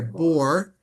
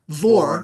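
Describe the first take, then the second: First: The word begins with a B sound. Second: The word begins with a V sound. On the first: The speaker calls it wrong. "I'm just saying bor" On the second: The speaker calls it right. "It's vor. In this case, it's a vate, not a bait"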